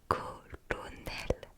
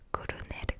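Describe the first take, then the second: First: The word is said slowly. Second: The word is said fast.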